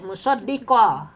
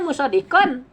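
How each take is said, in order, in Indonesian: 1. Bunyi n di akhir dihilangkan sama sekali. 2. Kata itu berakhir dengan bunyi n yang jelas. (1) "dimasukkan ke lam jadi musaddiqo" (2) "Asalnya musaddiqon"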